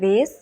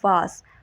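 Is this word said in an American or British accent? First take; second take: American; British. First: The vowel sounds like the 'ay' in 'day'. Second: The vowel sounds like the 'ah' in 'father'. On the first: "American pronunciation की बात करें तो ये होगा वेस" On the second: "British pronunciation की बात करें तो ये होगा वास"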